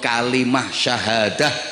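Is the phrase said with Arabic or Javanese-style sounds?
Arabic. It is said with full Arabic sounds. The speaker calls it right. "[name] ngomong kalimah syahadah"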